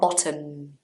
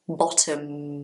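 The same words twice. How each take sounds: First: The final M sound is dropped. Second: The final M sound is clearly pronounced. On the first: The speaker calls it wrong. "Not bottom. No, no, no" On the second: The speaker calls it right. "The M at the end of the word actually has a sound"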